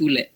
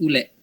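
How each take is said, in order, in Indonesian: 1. Vokal kedua adalah e. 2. Vokal kedua adalah e.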